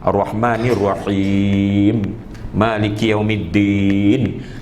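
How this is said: There is a pause after the first phrase. Each verse is stopped at, following the Prophet's practice. The speaker calls it right. "dia masuk dalam wakaf sunnah ataupun wakaf hasan"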